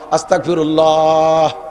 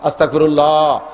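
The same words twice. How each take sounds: First: It is drawn out the longest. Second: It is drawn out somewhat longer.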